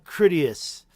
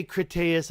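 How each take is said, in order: First: "Critias" hit firmly on the first syllable, KRIT; preferred pronunciation. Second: "Critias" with a long AY in the stressed middle; rejected pronunciation. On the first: Streamer showing viewers their own way, "Critias" stressed KRIT-ee-us. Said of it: "I'm gonna say it now". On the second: Streamer showing what they don't say, "Critias" as krit-AY-us. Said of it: "I don't say Critias". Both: Shown as a demonstration.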